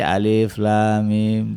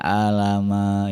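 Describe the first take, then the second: First: Each letter is named separately in sequence. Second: The letters are blended into one short word. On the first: The speaker calls it right. "Harusnya kan dibaca alif lam mim" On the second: The speaker calls it wrong. "Ada yang nggak ngerti baca alif lam mim, dibacanya alama"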